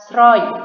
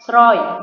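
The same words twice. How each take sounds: First: The word begins with an sr sound. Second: The same.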